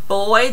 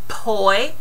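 First: The word begins with a voiced B sound. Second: The word begins with a voiceless P sound. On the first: The speaker calls it right. "Instead of saying boy" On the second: The speaker calls it wrong. "they say poi, because they do a P sound"

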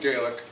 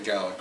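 First: The word has the non-Scottish English pronunciation. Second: The word has the Scottish English pronunciation. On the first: "rather than Gaelic" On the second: "most people from Scotland will say Gaelic"

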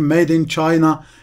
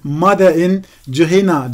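First: The words are pronounced the English way. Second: The words are read letter by letter, Turkish-style. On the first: The reader has learned English. The speaker calls it right. "şeklinde okumam gerektiğini öğrendim" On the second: The reader did not yet know English. The speaker calls it wrong. "Ben İngilizce öğreninceye kadar e, Made in China diye okuyordum"

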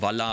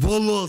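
First: The word is said offhandedly, in passing. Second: The word is said with strong, marked emphasis. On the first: The speaker calls it wrong. "nicht einfach so Walla aussprechen, so nebenher" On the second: The speaker calls it right. "Man muss so Walla sagen"

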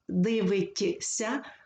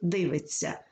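First: The t and s sounds are said separately. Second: The t and s merge into a long ts. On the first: The speaker calls it wrong. "складніше вимовляти" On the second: The speaker calls it right. "легше вимовляти"

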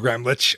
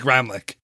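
First: The name is said with German pronunciation. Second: The name is said with American pronunciation. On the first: This is how it is said in Germany. "I think the German pronunciation is like Gramlich" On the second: This is how the family says it. "We say Gramlich"

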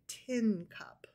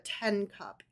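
First: The vowel sounds like the one in 'pin'. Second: The vowel sounds like the one in 'pen'. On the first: The speaker calls it right. "You drank out of a tin cup" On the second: The speaker calls it wrong. "So you didn't drink out of a 10 cup"

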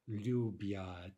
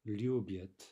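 First: The final vowel is a full, clear 'ya'. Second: The final vowel is reduced toward a short 'y'. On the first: The speaker calls it wrong. "we don't say lubiat" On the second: The speaker calls it right. "We say something more like lubyat"

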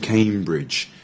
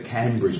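First: The first vowel is a long A sound. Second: The first vowel is a short A sound. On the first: The speaker calls it right. "it's actually Cambridge. ... With a long A" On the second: The speaker calls it wrong. "you would say Cambridge, but it's not"

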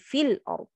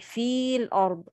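First: The vowel before the l is cut short. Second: The vowel before the l is held long. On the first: The speaker calls it right. "I say feel arb" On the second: The speaker calls it wrong. "I don't say feel arb"

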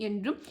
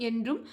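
The two takes are said the same way.

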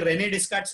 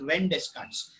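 First: The first name has two syllables, ending in a vowel. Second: The first name has one syllable, ending in 'n'. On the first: The speaker calls it wrong. "इसको कोई रेने डेस्कार्ट्स नहीं पड़ेगा" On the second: The speaker calls it right. "It is रेन डेस्कार्ट्स"

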